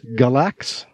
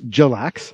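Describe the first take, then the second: First: The name begins with a hard G sound. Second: The name begins with a J sound. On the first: The speaker calls it right. "And then the name of the group is Galax?" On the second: The speaker calls it wrong. "Which I have been mispronouncing for the last few weeks on the air as Jalax"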